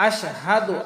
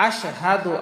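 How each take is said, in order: The two takes are said the same way.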